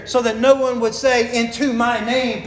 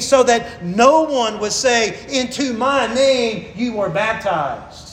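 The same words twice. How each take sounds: First: Said in the usual way. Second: Slow, weighty reading of the verse; slow emphatic reading. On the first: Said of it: "By putting that phrase there". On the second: Shown as a demonstration. Preacher reading Paul's words slowly to stress the point. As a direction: lean on "no one" and "my name". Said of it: "literally what he says is".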